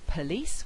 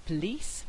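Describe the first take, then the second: First: Said in the usual way. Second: "police" as "plice" with a syllabic l. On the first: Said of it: "Instead of saying". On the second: Shown as a demonstration. Teacher demonstrating a syllabic consonant. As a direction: drop the vowel, "plice". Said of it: "we get".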